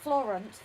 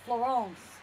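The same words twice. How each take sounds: First: It is said with an English pronunciation. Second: It is said with a French pronunciation. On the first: The speaker calls it wrong. "Not Florence" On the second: The speaker calls it right. "it's how they pronounce it over there"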